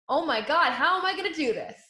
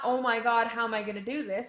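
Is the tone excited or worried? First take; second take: excited; worried. First: It is said in an excited, eager tone. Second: It is said in a worried, overwhelmed tone.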